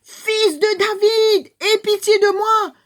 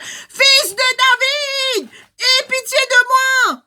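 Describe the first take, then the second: First: High, slow, loud plea; crying out. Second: Very high, slow, loud desperate plea; crying louder still. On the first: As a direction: beg at the top of your voice. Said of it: "Qu'il a crié". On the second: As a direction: shout it even louder, drawn out. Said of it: "il crie plus fort encore". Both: Acted.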